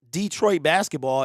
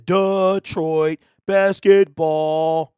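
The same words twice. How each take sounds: First: "Detroit" said as DEE-troit; "Detroit" as DEE-troit, running straight into basketball; DEE-troit pronunciation. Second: "Detroit" as a slow, drawn-out DUH-troit; mocking, stretched "Detroit" starting with duh; exaggerated duh-troit. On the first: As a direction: say "Detroit" with a long ee, in an easy flow. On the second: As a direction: chant it slowly with "Detroit" as duh-TROIT, each syllable held. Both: Shown as a demonstration. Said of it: "it sounds better than Detroit basketball".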